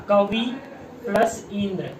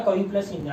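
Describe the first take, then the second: First: कवि said alone, pause, then plus Indra; slow spelled-out split. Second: Said in the usual way. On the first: Shown as a demonstration. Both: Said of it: "ऐसे लिखोगे".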